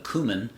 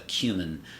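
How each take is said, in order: First: It is said the American way. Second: It is said the British way. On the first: "the American English side" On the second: "in the U K it's a cumin"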